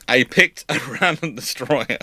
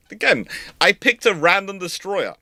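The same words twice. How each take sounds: First: Amused disbelief at his own choice; laughing. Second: Said in the usual way. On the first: Real, not acted. Host laughing at his pick of destroyer. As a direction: laugh breaking into random.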